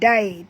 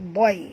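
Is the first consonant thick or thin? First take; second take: thin; thick. First: The first consonant is thin and light. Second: The first consonant is thick and heavy. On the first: The speaker calls it wrong. "bukan dai" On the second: The speaker calls it right. "tebalkan huruf dad"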